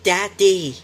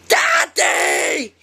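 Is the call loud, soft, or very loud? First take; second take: loud; very loud. First: It is called out a bit louder. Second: It is yelled as loud as possible.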